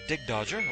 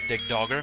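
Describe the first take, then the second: First: The second word has a soft j sound. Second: The second word has a hard g sound. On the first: This is the familiar childhood pronunciation. "I got used to calling it Dig Dodger as a kid" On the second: This pronunciation follows the spelling. "It's spelled with two G's, so it might be Dig Dogger"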